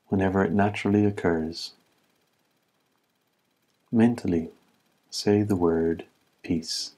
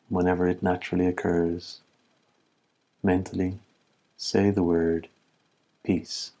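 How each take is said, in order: Both takes have the same delivery.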